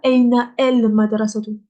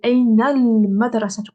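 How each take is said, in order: First: The article is said separately with its own vowel. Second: The article is linked to the preceding word. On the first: The speaker calls it wrong. "Pas Aina el madrasatu. Ça, c'est faux" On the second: The speaker calls it right. "On fait une liaison"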